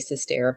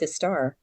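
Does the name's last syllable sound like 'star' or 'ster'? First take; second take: ster; star. First: The last syllable sounds like 'ster'. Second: The last syllable sounds like 'star'. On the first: The speaker calls it wrong. "I hate when people say sister" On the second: The speaker calls it right. "I'm a star, not a stare"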